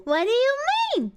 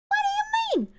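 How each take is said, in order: First: Said in the usual way. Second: Much higher, squeaked disbelief; very high cartoon squeak; squeaky disbelief. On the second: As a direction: squeak it out in mock shock. Repeats question in squeaky voice.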